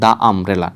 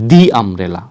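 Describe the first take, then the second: First: The word 'the' is said as 'thuh'. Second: The word 'the' is said as 'thee'. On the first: The speaker calls it wrong. "Not দা umbrella, দা umbrella উচ্চারণ করবেন না" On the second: The speaker calls it right. "আপনারা উচ্চারণ করবেন দি umbrella"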